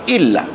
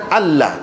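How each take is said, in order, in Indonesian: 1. Kata ini dimulai dengan vokal 'i'. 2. Kata ini dimulai dengan vokal 'a'. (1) "Hak sepatutnya ... illah" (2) "bukan Allah"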